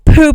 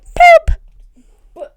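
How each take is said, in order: First: It is said in a normal speaking voice. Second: It is said in a high-pitched voice. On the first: The person says the word themselves. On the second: The toy bird repeats the word back.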